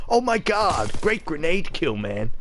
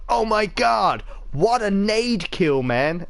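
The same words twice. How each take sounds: First: Put-on lighter take on an American gamer accent; mock American accent. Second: Hammed-up American gamer accent, higher and slow; mock American accent. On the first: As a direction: sneer at the American accent again, less hammed. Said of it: "I can't stand that fucking accent". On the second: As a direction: send up a hyped American gamer in his accent. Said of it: "a load of Yanks going".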